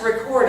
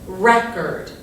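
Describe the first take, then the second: First: The stress is on the second syllable. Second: The stress is on the first syllable. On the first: It is the action of capturing sound or video. "And it's opposite" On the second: It names a recorded disc of music. "the emphasis is going to be on this first syllable"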